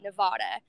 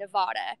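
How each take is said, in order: First: It is said the Midwest/East Coast way. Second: It is said the Midwest/East Coast way.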